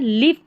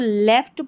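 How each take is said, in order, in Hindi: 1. स्वर 'ih' की तरह बोला जाता है। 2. स्वर 'eh' की तरह बोला जाता है। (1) "लिफ्ट नहीं पढ़ेंगे" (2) "इसको लेफ्ट पढ़ना है"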